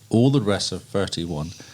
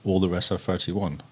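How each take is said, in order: First: It is said at a slower pace. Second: It is said at a quicker pace.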